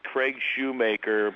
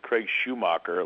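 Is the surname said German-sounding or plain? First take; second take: plain; German-sounding. First: The surname is said in a plain, unaccented way. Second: The surname is said with a German-sounding accent. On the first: The speaker calls it right. "It's just Craig Shoemaker" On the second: The speaker calls it wrong. "like I'm off the boat from Bavaria with an umlaut"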